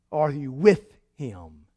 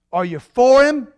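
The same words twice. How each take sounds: First: "with" lowered, slow and drawn out; stress on with. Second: Said in the usual way. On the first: Shown as a demonstration. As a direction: lean low and slow on "with". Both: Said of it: "Are we troublemakers?".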